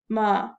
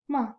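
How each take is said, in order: First: The pitch is low, flat and deep. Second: The pitch is light and neutral, in normal voice. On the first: "use your deep voice, do it down, down, down in your throat" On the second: "Your normal voice, regular, neutral tone"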